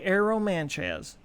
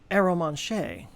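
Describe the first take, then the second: First: It is said with a Texan American accent. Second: It is said with a put-on French accent. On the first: "in my Texas accent" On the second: "adding a little French stank to it"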